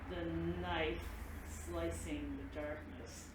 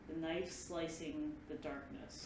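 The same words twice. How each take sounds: First: It is said at the slowest pace. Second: It is said at a slow pace.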